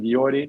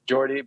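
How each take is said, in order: First: The name begins with a Y sound. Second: The name begins with an English J sound. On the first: This is how the Dutch say it. "we we just pronounce it Jordi" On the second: This is how people in England say it. "if you get to, to England, you- they, they say like Jordi"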